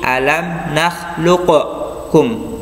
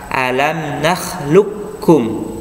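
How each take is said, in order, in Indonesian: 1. Huruf q dilepas dengan pantulan gema. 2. Huruf q langsung menyatu ke dalam k. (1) "dikolkolah dulu ya, seperti ... itu salah" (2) "dibaca langsung masuk ke huruf kaf tanpa mengkolkolahkan huruf qaf"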